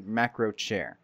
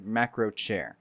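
First: The name is pronounced the English way. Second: The same.

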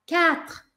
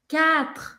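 No difference in how they are said.

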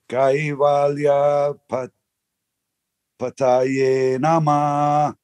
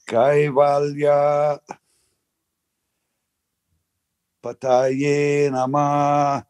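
The two takes are said the same way.

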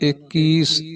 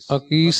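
First: The word begins with an i vowel. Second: The word begins with an a vowel. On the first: The speaker calls it right. "ਇਹ ਈੜੀ ਨੂੰ ਸਿਹਾਰੀ 21" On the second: The speaker calls it wrong. "ਅਕੀਸ ਨਹੀਂ ਕਹਿਣਾ"

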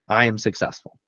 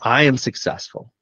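First: It is said flatly, without conviction. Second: It is said forcefully, with conviction.

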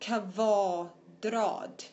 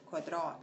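First: The word is said slowly and on its own. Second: The word is said quickly in running speech. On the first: "[name]จะลองเป็นไปแต่ละคำนะคะ" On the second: "ถ้า[name]พูดเร็วไป"

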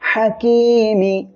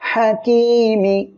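The two takes are said the same way.

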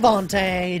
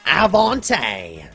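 First: The word is said at a faster pace. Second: The word is said at a slower pace.

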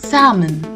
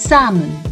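First: The L sound is silent. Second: The same.

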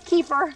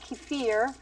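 First: Kefir is said the American way. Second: Kefir is said the Russian way.

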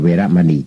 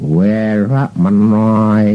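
First: The last syllable is said as 'ni'. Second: The last syllable is said as 'noi'. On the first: "ไม่ใช่เวรมะนี" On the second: "จะออกเป็นเสียงมะนอย"

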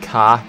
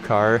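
First: The word is said in a British accent. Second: The word is said in a non-British accent. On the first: "they say car" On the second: "instead of car"

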